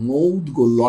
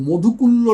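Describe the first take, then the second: First: The middle has a clear 'dg' consonant cluster. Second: The middle has 'dhuk' with no 'dg' cluster. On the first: The speaker calls it right. "না কিন্তু মৌদগল্য" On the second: The speaker calls it wrong. "অনেকে এগুলো ভুলভাল উচ্চারণ করেন"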